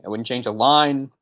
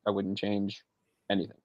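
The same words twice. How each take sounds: First: "line" leaned on, slow and a bit louder; slow it down and land hard on "line"; stress on line. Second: "I wouldn't change anything" dropped soft, almost to himself; softer repeat. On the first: Gushing about the movie, stressing "line" slowly. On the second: Echoing his own praise, trailing off softly. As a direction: let it fall away quietly. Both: Shown as a demonstration. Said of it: "repeating for emphasis".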